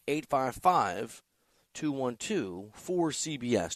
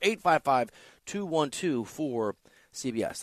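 First: The number is said slowly. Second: The number is said at normal speed.

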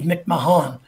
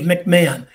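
First: The H sound in the middle is pronounced. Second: The H sound in the middle is silent. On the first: The speaker calls it wrong. "It's not Dave McMahon" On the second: The speaker calls it right. "The H is silent"

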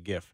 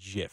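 First: It starts with a hard G sound. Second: It starts with a soft J sound. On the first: The speaker calls it wrong. "A lot of people tell you GIF. Don't listen" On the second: The speaker calls it right. "The correct way to call it is GIF. Like peanut butter"

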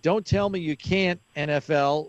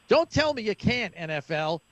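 First: It is read in a plain, neutral tone. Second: It is said in an annoyed, scornful tone.

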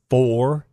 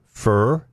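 First: The word has a full 'or' vowel. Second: The word has an 'ur' vowel, like 'fur'. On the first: "I don't say for" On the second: "I say fur"

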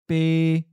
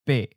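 First: The syllable is mid-pitched, level and not cut off. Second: The syllable is mid-pitched and cut off abruptly.

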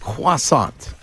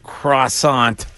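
First: Croissant is said with a French pronunciation, kwa-sant. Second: Croissant is said with an American English pronunciation. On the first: The speaker calls it right. "but it's croissant" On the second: The speaker calls it wrong. "A masshole would say, give me a croissant"

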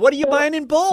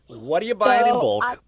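First: The question sounds friendly and neutral. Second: The question sounds disapproving and judgmental. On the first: The speaker is simply curious. The speaker calls it right. "There you go. Thank you" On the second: The speaker disapproves of the purchase. The speaker calls it wrong. "Why do you say it like that, Bean? You don't have to be so judgmental"

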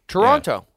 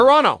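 First: The second t is clearly pronounced. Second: The second t is dropped. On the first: The speaker calls it wrong. "I just did it wrong. Again" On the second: The speaker calls it right. "You want to take the second T out"

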